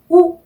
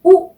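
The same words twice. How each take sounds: First: 우 high and loud, lips rounded; a pure rounded "ou"; French ou vowel. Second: 우 short and plain; the same rounded "ou" quickly; French ou vowel. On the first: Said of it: "우 이렇게 항상 발음을 해요". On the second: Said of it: "이렇게 항상 발음을 해요". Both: Shown as a demonstration.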